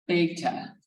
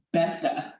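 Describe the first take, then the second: First: "beta" with a long a, BAY-tah; American pronunciation. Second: "beta" with a short e, BEH-tah; Greek pronunciation. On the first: Teacher showing how most Americans say it, American pronunciation. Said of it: "Most Americans pronounce it". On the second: Teacher showing the real way, Greek pronunciation. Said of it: "It's the real way". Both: Shown as a demonstration.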